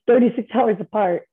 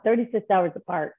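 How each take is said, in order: First: Thirty-six then a real laugh; laughing in disbelief. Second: Said in the usual way. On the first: Real, not acted. Telling the host about her parents, laughing. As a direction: laugh breaks up thirty-six hours apart. Repeats the odd fact, laughing.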